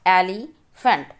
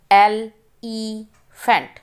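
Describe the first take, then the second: First: Said in the usual way. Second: elephant said slowly, syllable by syllable; slow syllable reading. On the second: Shown as a demonstration. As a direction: break elephant into slow parts for pupils. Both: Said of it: "Read the multi-syllable words".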